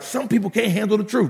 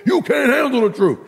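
First: Said in the usual way. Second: High, emphatic movie outburst; movie line impression. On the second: Preacher quoting a movie to the congregation, mock outburst. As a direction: fire it off like a famous film quote. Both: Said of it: "Remember that movie?".

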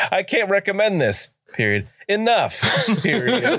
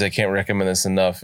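First: High "I can't recommend this", full stop, then separate "Enough"; punctuation read out. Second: Said in the usual way. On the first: Retold or imitated. Host quotes a friend's review, comic stops before and after "Enough". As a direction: split "recommend this" from "Enough" with a spoken "period", breaking into laughter. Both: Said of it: "where he says".

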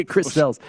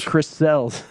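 First: Name repeated through a laugh. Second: Said in the usual way. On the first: Real, not acted. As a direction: chuckle as you say it again.

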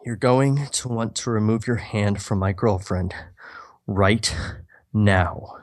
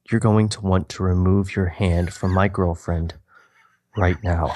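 First: Norman repeating his warning, lightly menacing; stone cold threat. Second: A hint of a cold, low menace; stone cold threat. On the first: Acted. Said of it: "Do it again". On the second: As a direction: Norman warning the man off his girlfriend, lightly menacing. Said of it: "His eyes turn stone cold and his voice more so".

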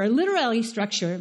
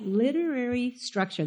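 First: "literary" slurred, the middle syllables blurred into "litera-ary"; stumbled pronunciation. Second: Carefully fix "literary" with the last syllables distinct; careful retry. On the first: Preacher tripping over a word before the congregation, stumbling. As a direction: trip over "literary", vowels running together. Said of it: "ugh, if I can say that". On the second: Preacher correcting himself for the congregation, careful. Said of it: "There you go". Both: Real, not acted.

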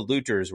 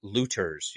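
First: Said in the usual way. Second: "looters" with the weight shifted onto "-ters"; stress on wrong syllable. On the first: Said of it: "You like how I put the emphas". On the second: Real, not acted. Reviewer fumbling a word, "looters" stressed on its last syllable. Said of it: "emphasis on the wrong syllable".

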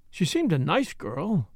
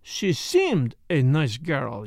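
First: Put-on light stress on nice in "She seemed a nice girl". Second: "seemed" leaned on, slow and doubting; stress on seemed. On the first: A narrator's reading. Narrator answering Poirot, nice lightly stressed. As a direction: lean a little on nice, said hesitantly. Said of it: "I had laid a slight stress on the fourth word, nice". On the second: Acted. Poirot echoing the doctor's words, stress on seemed. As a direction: drag out "She seemed a nice girl", weight on seemed. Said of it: "he put it on the second".

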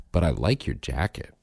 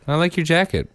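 First: Lightly voiced offhand child; casual imitated kid. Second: Put-on higher, offhand child's compliment; casual imitated kid. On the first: Dad quoting his son's consolation compliment, casual. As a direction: toss it off casually, a bit lower. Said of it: "he said it real casual". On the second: Dad showing how his son said it, real casual. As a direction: toss it off like a breezy little kid. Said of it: "And he said it real casual".

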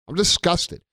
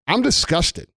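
First: Disgusted. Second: Real disgust, spat out at the viewers. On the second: Ranting to viewers about lockdown, openly disgusted. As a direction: say "I'm disgusted" with the word "disgusted" falling hard at the end. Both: Real, not acted. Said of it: "I'm sure you've gathered that from my tone of voice".

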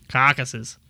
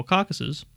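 First: Put-on Boston accent on "Caucuses"; attempted Bostonian accent. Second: Said in the usual way. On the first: Shown as a demonstration. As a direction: repeat "Caucuses" as a mock Bostonian. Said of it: "more for, like, Bostonian".

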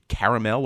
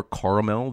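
First: "caramel" said one regional way; regional pronunciation. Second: "caramel" said the other regional way; alternative regional pronunciation. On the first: Co-host describing a birthday cake, regional pronunciation of "caramel". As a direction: say "caramel" in the first of two regional variants. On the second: Co-host correcting to another region's "caramel", alternative pronunciation. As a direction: say "caramel" in the second of two regional variants. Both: Shown as a demonstration. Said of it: "depending on where you're from".

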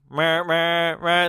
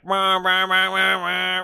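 First: Weaker imitated engine noise; feebler car noise. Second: Loud, higher imitated engine roar; urgent car noise. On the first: Host mocking the film's tame chase, half-hearted car noise. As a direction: imitate an engine with less urgency. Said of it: "Instead, it's just like". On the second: Host showing how the chase should sound, urgent car roar. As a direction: imitate a car bearing down hard. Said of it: "it should be like". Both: Shown as a demonstration.

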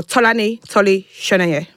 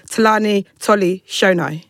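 First: Tolani said the Nigerian way, rounded first vowel; Tolani, not westernized to Talani; Nigerian pronunciation. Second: Talani said the westernized English way; westernized pronunciation. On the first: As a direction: give Tolani its proper Nigerian sound. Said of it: "Because I know Nigerians are listening". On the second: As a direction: Talani in an easy westernized reading. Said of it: "like, westernize my name". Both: Shown as a demonstration.

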